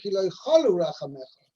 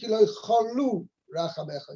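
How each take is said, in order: First: The stress is on the first syllable. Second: The stress is on the second syllable. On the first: Your mercy never ends. The speaker calls it wrong. "wouldn't be correct" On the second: Your mercy has not been withheld. The speaker calls it right. "Its emphasis is on the second syllable"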